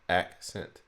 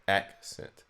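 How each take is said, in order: No difference in how they are said.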